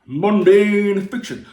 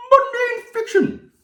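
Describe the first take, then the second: First: Slow hyped announcement. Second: Much higher, slow squeal of mundane; squeaky high mock announcement. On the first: Pretend. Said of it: "announcing the genre". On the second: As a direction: squeal the title in falsetto. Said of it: "repeats the title, high".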